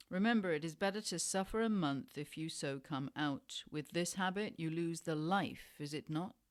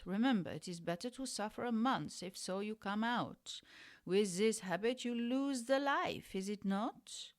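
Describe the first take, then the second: First: Said in the usual way. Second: Quick, badly faked German accent; terrible German accent. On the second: Refugee German doctor warning a junkie of the habit, bad German accent. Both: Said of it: "That was a terrible German accent".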